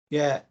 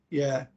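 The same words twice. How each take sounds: The two takes are said the same way.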